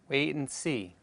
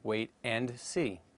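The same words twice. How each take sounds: First: The D sound in 'and' is dropped. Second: The D sound in 'and' is clearly heard. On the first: "It is pronounced as wait and see" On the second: "instead of wait and see"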